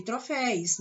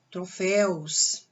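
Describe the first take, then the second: First: "troféus" mispronounced as "troféis"; wrong plural demo. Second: "troféus" ending in a clear -éus; careful, drawn-out "troféus" with -éus ending; correct plural demo. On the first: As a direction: swap the u-glide in "troféus" for an i. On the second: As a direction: sound the u-glide before the s in "troféus". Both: Shown as a demonstration. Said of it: "nada de falar por aí".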